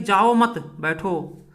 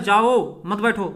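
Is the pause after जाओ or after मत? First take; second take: after मत; after जाओ. First: There is a pause after मत. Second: There is a pause after जाओ.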